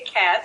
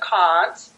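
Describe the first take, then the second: First: It has a short, flat American vowel. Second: It has a long, broad British vowel. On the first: "I learned how to say can't" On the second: "instead of can't"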